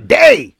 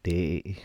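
First: It is said in an angry tone. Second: It is said in an affectionate tone.

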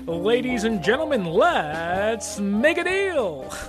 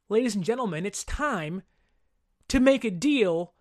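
First: It is said in a game-show announcer voice. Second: It is said in his normal speaking voice.

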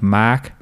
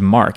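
First: The name is said without the R. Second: The name is said with a hard R. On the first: "my grandfather would call me like" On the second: "It has a hard R"

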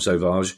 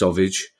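First: The name sounds smooth and cool. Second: The name sounds like the word sausage. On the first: "the coolest possible pronunciation of that name" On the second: "If it's actually pronounced Sauvage, as in sausage"

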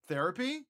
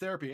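First: The voice rises at the end of the word. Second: The voice falls at the end of the word. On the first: The speaker calls it right. "there with the question mark" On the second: The speaker calls it wrong. "I think you mispronounced Therapy"

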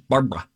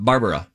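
First: The name is said with two syllables. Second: The name is said with three syllables. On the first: This is the changed, current form of the name. "got rid of the A in the middle" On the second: This is the original form of the name. "Not Barbara"

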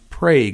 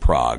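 First: It is pronounced the local Oklahoma way. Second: It is pronounced like the European city. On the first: "It's pronounced Prague in Oklahoma" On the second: "It looks like Prague, as in the European city"

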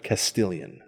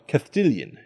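First: The middle consonant is a plain s sound. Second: The middle consonant is a lisped th sound. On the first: "instead of" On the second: "the prevalence of the sound "tha" in Spanish, so they would say"

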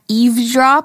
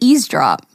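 First: The word is said with a v sound. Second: The word is said without a v sound. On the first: "It sounds like Christmas Eve" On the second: "I've always said eavesdrop. I didn't know there was a V in there"

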